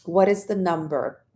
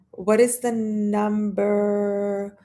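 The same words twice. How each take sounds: First: Said in the usual way. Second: Puzzled slow echo of "What is the number?"; drawn-out puzzled repeat. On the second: Acted. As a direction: mull the question over aloud.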